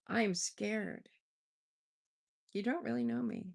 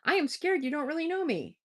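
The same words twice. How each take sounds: First: There is a clear pause after scared. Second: It runs on with no pause after scared.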